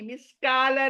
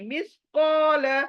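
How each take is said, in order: First: The syllable after the q sounds thin and light. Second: The syllable after the q sounds thick and rounded. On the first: The speaker calls it wrong. "मिसकाल नहीं" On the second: The speaker calls it right. "देखिए कितना मोटा पढ़ रही हूं मैं"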